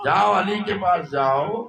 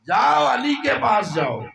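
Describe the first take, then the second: First: Said in the usual way. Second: High, loud divine command; booming order with "جاؤ" hammered; commanding shout. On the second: Acted. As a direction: shout "جاؤ علی کے پاس جاؤ" as a ringing order. Voicing God's command, then repeated.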